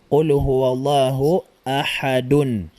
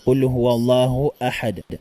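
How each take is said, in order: First: The last word ends with a full '-dun' syllable. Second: The last word ends on a bare 'd' sound. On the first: The final vowel is pronounced. "Kung ating bibigkasin" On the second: The final vowel is dropped at a stop. "pwede na po nating uh, hindi bigkasin ang patinig"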